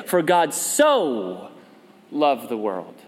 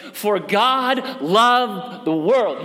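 First: Slow, leaning hard on so; stress on so. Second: Said in the usual way. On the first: Shown as a demonstration. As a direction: pastor contrasting the verse's wording, stressing so slowly. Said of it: "What does he say?". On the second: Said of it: "Jesus very well could have said".

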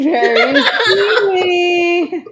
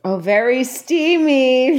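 First: Laughing. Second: Said in the usual way. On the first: Acted. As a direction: stretch very steamy slowly through a laugh.

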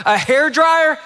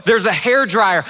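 First: High, disbelieving question; incredulous. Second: Said in the usual way. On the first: Retold or imitated. Husband balks at packed hair dryer.

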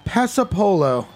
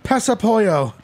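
First: "Pasapolo" with a plain L, "pessa-po-lo"; corrected pronunciation. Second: "Pesapollo" with a y sound for the L's, "pessa-poyo"; mispronounced. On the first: Quizmaster corrects the misread sport, "Pasapolo" said with a clear L. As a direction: sound the L in "Pasapolo", ending "po-lo". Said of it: "I'm sorry". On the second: Quizmaster misreads the sport for the contestant, "Pesapollo" mispronounced as "pessa-poyo". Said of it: "I pronounced it with, like, some the wrong". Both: Real, not acted.

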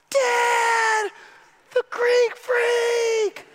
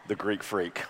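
First: Put-on excited kid shout. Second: Low, hushed and reverent, much softer; awed hush. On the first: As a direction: yell it like a kid seeing his hero. Sons cheer the star. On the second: Acted. The preacher recalling how his boys beheld the star, hushed in awe. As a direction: breathe the name in wonder.

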